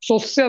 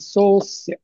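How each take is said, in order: First: The o vowel is kept short, not drawn out. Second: The o vowel is drawn out slightly longer. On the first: "सोस्य नाही म्हणायचं असं" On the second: "किंचित लांबवायचं"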